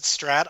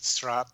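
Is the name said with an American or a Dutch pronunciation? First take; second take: American; Dutch. First: The name is said with an American pronunciation. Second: The name is said with a Dutch pronunciation. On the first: "I pronounce it Strat" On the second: "I think actual Dutch people would pronounce it Strat"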